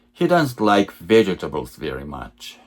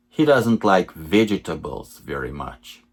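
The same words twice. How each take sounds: The two takes are said the same way.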